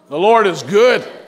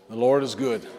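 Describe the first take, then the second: First: It is said with enthusiasm and energy. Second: It is said calmly, without extra energy.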